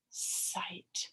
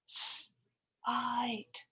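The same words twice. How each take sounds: First: "Sight" whispered very softly. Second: Said in the usual way. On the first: Shown as a demonstration. Teacher repeating sight as a whisper. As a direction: breathe the word sight.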